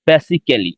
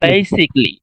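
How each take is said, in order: First: The middle '-cal-' syllable is pronounced fully. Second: The middle '-cal-' syllable is dropped entirely. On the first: The speaker calls it wrong. "আমরা সাধারণত শুনি যে এইভাবে যে" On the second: The speaker calls it right. "কিন্তু এটার প্রোনাউন্সিয়েশনটা হবে এইভাবে যে"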